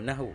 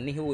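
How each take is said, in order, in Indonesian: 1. Vokal pertama adalah bunyi 'a'. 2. Vokal pertama adalah bunyi 'i'. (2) "Bukan nihu itu"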